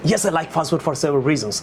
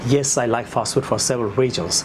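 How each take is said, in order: First: The sentence is rushed out at a fast pace. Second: The sentence is spoken at a slow, calm pace. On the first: The speaker calls it wrong. "Don't try to talk that way" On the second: The speaker calls it right. "একটু slow বলবা"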